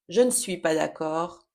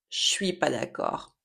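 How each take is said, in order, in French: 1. Le 'ne' est prononcé en entier. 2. Le 'ne' disparaît et 'je' sonne comme 'ch'.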